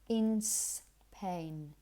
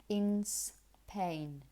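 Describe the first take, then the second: No difference in how they are said.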